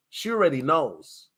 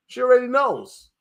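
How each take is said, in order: First: Said in the usual way. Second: Higher, louder knowing repeat; raised, knowing echo. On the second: Shown as a demonstration. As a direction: say it again like it's obvious.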